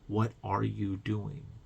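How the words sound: It is said in a caring, supportive tone.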